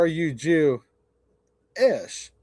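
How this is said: The last word has a pause before -ish.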